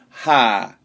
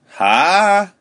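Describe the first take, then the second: First: It is said with the fourth tone. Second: It is said with the second tone. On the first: "fourth tone" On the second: "second tone"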